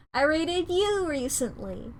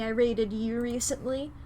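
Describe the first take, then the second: First: "you" raised and stretched; stress on YOU. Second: Said in the usual way. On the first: Real, not acted. Streamer picking whom to raid, stress on "you". Repeats it, singling out another channel.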